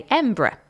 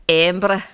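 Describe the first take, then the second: First: Said in the usual way. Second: Attempted Scottish accent. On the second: Shown as a demonstration. Presenter shows listeners how locals say Embra, in an attempted Scottish accent. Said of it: "saying it out loud in a Scottish accent".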